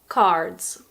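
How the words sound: The R sound after the vowel is pronounced. "in American pronunciation, you pronounce the R"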